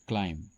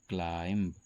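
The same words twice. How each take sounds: First: No b sound is heard at the end. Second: A b sound is heard at the end. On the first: The speaker calls it right. "यहां पर बी silent होता है" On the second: The speaker calls it wrong. "लेकिन ये भी गलत है"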